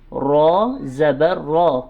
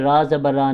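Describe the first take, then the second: First: The letter name is said fully, with its whole sound. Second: The letter name is said clipped, only half. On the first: The speaker calls it right. "पूरा लफ्ज़ अदा करेंगे" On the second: The speaker calls it wrong. "आधे आधे लफ्ज़ नहीं पढ़ने"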